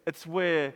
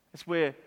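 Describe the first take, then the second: No difference in how they are said.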